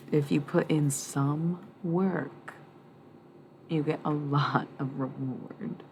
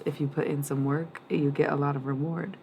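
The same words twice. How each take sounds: First: Words stretched out slowly; slow, drawn-out reading. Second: Said in the usual way. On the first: Shown as a demonstration. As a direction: spell it out slowly, word by word. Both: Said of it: "Kinda sounds wrong".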